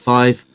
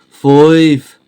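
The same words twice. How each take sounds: First: It is said in a standard accent. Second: It is said in a Birmingham accent.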